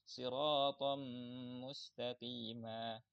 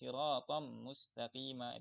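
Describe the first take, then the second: First: A nasal hum is held at the join. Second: The nasal hum at the join is missing. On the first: The speaker calls it right. "harus ada gunahnya" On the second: The speaker calls it wrong. "bukan siratam mustaqima. Itu kurang kurang sempurna, harus ada gunahnya"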